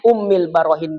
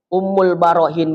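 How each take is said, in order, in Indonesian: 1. Kata pertama berakhir dengan vokal i. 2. Kata pertama berakhir dengan vokal u. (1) "Ummil Barohin boleh" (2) "dikembalikan kepada baris rofa, yaitu dommah"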